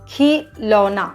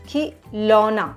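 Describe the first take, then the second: Both takes have the same delivery.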